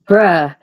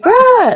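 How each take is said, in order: First: It sounds super mad. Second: It sounds super happy.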